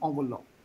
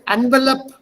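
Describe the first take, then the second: First: It is pronounced the original way. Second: It is pronounced the local Indian way. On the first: The listener will not understand. "The original pronunciation is envelope" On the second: The listener will understand and help. "I say envelope, give me envelope, Baba, envelope, he will give me whatever I want"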